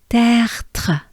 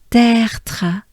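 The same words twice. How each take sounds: Both takes have the same delivery.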